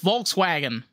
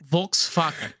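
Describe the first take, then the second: First: The W is pronounced like an English W. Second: The W is pronounced like a V. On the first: This is how Americans say it. The speaker calls it wrong. "they're like, oh, it's Volkswagen" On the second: This is the German way to say it. The speaker calls it right. "No, it's Volkswagen"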